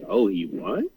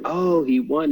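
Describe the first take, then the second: First: It sounds puzzled, like a surprised question. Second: It sounds excited and celebratory.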